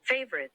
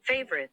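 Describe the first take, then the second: The two takes are said the same way.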